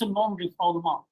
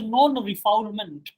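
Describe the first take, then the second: First: The word is said with French pronunciation. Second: The word is read out as it is spelled. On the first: The speaker calls it right. "the French pronunciation of this word is" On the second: The speaker calls it wrong. "written as non-refoulement, but this is not the correct pronunciation"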